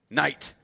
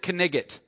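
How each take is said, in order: First: The k and g sounds are left silent. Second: The k and g sounds are pronounced aloud. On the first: The speaker calls it right. "Those are silent letters" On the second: The speaker calls it wrong. "Why do we not pronounce it knigget?"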